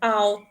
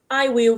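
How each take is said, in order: First: Will is shortened and joined to the pronoun. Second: Will is said as a separate full word.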